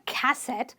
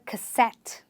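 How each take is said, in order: First: The stress is on the first syllable. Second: The stress is on the last syllable. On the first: The speaker calls it wrong. "not a cassette" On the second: The speaker calls it right. "You stress on the, the, the suffix itself"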